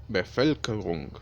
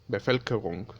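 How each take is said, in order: No difference in how they are said.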